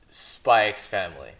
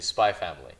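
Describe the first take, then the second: First: The letter X is spoken between the words. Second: The letter X is left silent between the words. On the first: "I'm going to say Spy X Family" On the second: "who want to pronounce it correctly"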